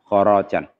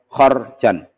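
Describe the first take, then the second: First: The r is followed by a long a. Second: The r has no vowel after it. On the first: This is how two particular reciters read it. "dengan fathah ra'nya yaitu khoro, ... dengan ada alifnya" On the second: This is how most reciters read it. "itu bacanya dibaca sukun. Jadi hampir semuanya baca khorjan"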